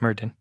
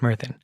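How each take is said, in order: First: The middle consonant sounds like 'd'. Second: The middle consonant sounds like 'th'. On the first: This is the everyday non-Welsh pronunciation. "If you're a normal person, you pronounce it Myrddin" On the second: This is the native Welsh pronunciation. "if you're Welsh, you pronounce it Myrddin. ... the double D is apparently pronounced T H in Welsh"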